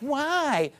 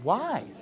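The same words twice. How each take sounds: First: It sounds angry and defiant. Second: It sounds sincerely curious.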